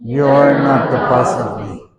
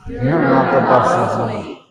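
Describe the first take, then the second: First: Put-on slow, sassy child defiance; mock sassy child. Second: Slow, sassy talk-back with a laugh; mock sassy child, giggling. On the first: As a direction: talk back like a sassy kid. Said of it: "Everybody repeat". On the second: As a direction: sass it while laughing. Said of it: "So go again". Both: Shown as a demonstration.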